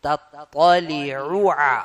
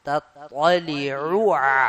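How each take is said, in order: Both takes have the same delivery.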